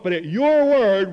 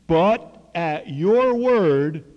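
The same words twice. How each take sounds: First: "but at your word" higher and louder, eager; enthusiastic. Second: Slow, louder, drawn-out "but at your word"; reluctant yielding. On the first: Eager Peter answering the Lord, keen and loud. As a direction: say it as if you can't wait to try. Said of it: "It's enthusiasm". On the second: Doubting Simon yields to Jesus, slow and reluctant. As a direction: give in slowly, doubting but obeying. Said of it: "I don't think we're gonna catch any". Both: Retold or imitated.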